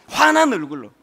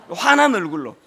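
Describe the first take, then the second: No difference in how they are said.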